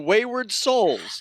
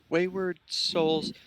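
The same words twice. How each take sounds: First: It is said in a grand, theatrical voice. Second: It is mumbled quietly, as if practicing. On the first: "in what I think would be a theatrical voice" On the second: "look down on the floor and just kind of go"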